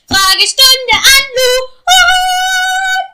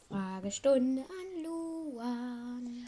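First: It is shouted loudly. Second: It is said more quietly.

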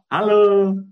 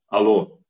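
First: It sounds cheerful, said with a smile. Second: It sounds unfriendly, said without a smile.

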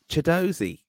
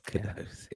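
First: The name begins with a ch sound. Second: The name begins with a hard k sound. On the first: The speaker calls it right. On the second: The speaker calls it wrong.

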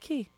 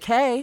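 First: The vowel sounds like 'ee'. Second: The vowel sounds like 'ay'. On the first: The speaker calls it right. "We say key" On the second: The speaker calls it wrong. "we don't say K"

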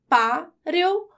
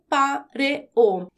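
First: The final vowels blend into one syllable. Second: The final vowels are split into two syllables.

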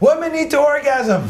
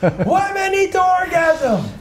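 First: It is said louder. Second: It is said louder still.

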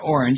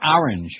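First: It is said with a non-New York pronunciation. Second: It is said with a New York pronunciation. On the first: "those of us from, like, not from New York" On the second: "all the New York kids used to give us a bunch of crap"

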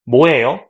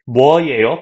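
First: The first syllable is simplified to 'mo'. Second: The first syllable has a clear w-glide, 'mwo'. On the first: This is the easier everyday pronunciation. "people just say 뭐예요, like that" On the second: This is the careful standard pronunciation. "technically, Bo is right"

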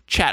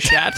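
First: The word begins with a ch sound. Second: The word begins with an sh sound. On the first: "CH is a ch" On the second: "I've been saying it as like a sh. ... just like that"

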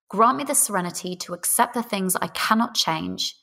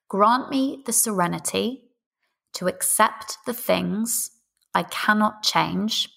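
First: It is spoken at a faster pace. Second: It is spoken at a slower pace.

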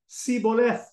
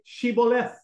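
First: The word begins with an s sound. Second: The word begins with a sh sound. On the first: The speaker is from Ephraim. The speaker calls it wrong. "were unable to pronounce the H" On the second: The speaker is not from Ephraim. The speaker calls it right. "they would tell him to say"

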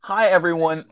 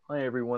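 First: It is said in a normal speaking voice. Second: It is said in a soft ASMR voice.

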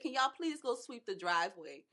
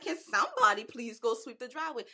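First: It is said in a calm, ordinary voice. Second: It is said with more force and emphasis.

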